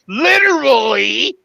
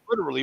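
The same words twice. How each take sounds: First: Every syllable of the word is pronounced distinctly. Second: The word is said quickly with syllables reduced.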